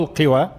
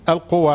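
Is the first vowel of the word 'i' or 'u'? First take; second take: i; u. First: The first vowel is a front 'i'. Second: The first vowel is a rounded 'u'. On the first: "بالكسر" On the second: "بالضم"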